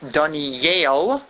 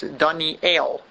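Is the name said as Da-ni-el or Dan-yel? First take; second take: Dan-yel; Da-ni-el. First: The vowel joins the y sound, like Dan-yel. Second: The vowel starts a separate syllable, like Da-ni-el. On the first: The speaker calls it wrong. "it's not Daniel. The A is not under the Yud" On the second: The speaker calls it right. "it's under the Aleph. It's Daniel, just in the proper pronunciation"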